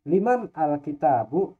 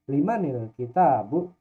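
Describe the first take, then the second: First: Man and al are said as separate words. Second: Man links to al through an added i sound.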